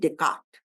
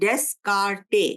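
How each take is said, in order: First: The name is said without an s sound. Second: The name is said with an s sound. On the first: This is how the name is actually said. "लेकिन प्रोनाउंस करते हैं डेकार्ट" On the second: This is how the name is written. "इसको स्पेल करते हैं डेस्कार्टे"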